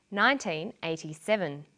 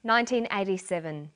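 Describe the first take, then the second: First: NINETEEN EIGHTY-SEVEN broken into separate, measured words; deliberate year reading of nineteen eighty-seven; stress demo. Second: NINETEEN EIGHTY-SEVEN as a connected year; careful year reading of nineteen eighty-seven; stress demo. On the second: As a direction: model the year NINETEEN EIGHTY-SEVEN in one smooth phrase. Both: Shown as a demonstration. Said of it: "Notice where the stress comes".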